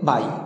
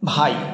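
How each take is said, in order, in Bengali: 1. শব্দটি একটি সাধারণ 'b' ধ্বনি দিয়ে শুরু হয়। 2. শব্দটি একটি শ্বাসযুক্ত 'bh' ধ্বনি দিয়ে শুরু হয়।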